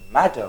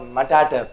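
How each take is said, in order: First: Matter, said as two syllables with a single t; correct single t. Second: Matater, with the t said twice as ma-ta-ter; wrong doubled t. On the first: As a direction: say matter cleanly, one t sound only. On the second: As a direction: stretch matater into three syllables, repeating the t. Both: Shown as a demonstration. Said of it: "it's not matater, it is matter".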